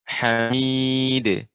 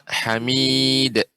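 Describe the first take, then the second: First: The final d is released with a short bounce. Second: The final d is cut off with a catch. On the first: The speaker calls it right. "yang pertama yang tepat" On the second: The speaker calls it wrong. "Yang kurang tepat"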